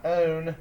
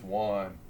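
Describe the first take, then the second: First: "own" sounded with a long O; "own" with a long vowel and no w at the start; wrong pronunciation. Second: Said in the usual way. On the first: Shown as a demonstration. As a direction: say "own" as the magic E would make it. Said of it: "but it's not own". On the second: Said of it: "it's one".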